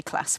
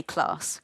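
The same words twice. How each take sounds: First: "class" with a short flat a, like "klass"; Midlands "class". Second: "class" with a long broad ah, like "clahss"; posh "class". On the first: A Leicester nurse showing her home way to say "class", with a short flat "a". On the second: A nurse showing the southern way to say "class", with a long "ah". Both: Shown as a demonstration. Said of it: "which shows that I'm not high class".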